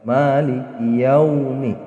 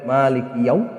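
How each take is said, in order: First: The phrase ends with a short i vowel. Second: The phrase ends on the m consonant. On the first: The speaker calls it right. "seperti itu membacanya" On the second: The speaker calls it wrong. "tidak boleh maliki yaum"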